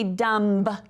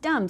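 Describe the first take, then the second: First: A B sound is pronounced at the end. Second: No B sound is pronounced at the end. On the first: The speaker calls it wrong. "we don't say dumb" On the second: The speaker calls it right. "It's just dumb. So our B is our little ghost letter"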